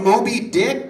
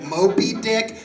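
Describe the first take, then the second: First: Said in the usual way. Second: "Moby" said with a p, like "mopey". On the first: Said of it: "but my partner said that I sounded too much like". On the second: Shown as a demonstration. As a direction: turn the b in "Moby" into a p. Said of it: "sounded too much like Moby Dick".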